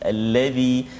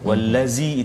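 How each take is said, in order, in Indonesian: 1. Konsonannya bunyi 'th', lidah keluar. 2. Konsonannya bunyi 'z', lidah masuk. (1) "Bila kita menyebut huruf dzal lidah kita sedikit keluar" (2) "kalau tak jadi zai wallazi itu zai itu tak keluar lidah"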